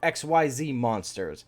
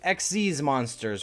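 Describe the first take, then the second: First: The name is spelled out letter by letter. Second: The name is said as one short word. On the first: "X Y Z is technically what it also says as well" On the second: "You can pretty much just say X Z's because that counts"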